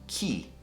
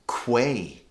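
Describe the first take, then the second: First: The word sounds just like 'key'. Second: The word does not sound like 'key'. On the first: The speaker calls it right. "it's actually pronounced key" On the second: The speaker calls it wrong. "A lot of people say quay. They don't know how to pronounce"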